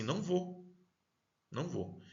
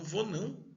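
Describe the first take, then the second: First: Said in the usual way. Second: A touch of Northeastern lilt, higher on "Vou não"; light Nordeste accent, "Vou não" rising high. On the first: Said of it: "Você fala assim". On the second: Retold or imitated. Teacher imitating a Northeastern speaker refusing. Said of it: "no Nordeste, por exemplo, eles já falam".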